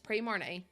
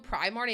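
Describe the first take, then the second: First: The first syllable sounds like 'pree'. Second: The first syllable sounds like 'pry'. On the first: The speaker calls it right. "it's Pre-Marnie" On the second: The speaker calls it wrong. "You don't go Primarnie"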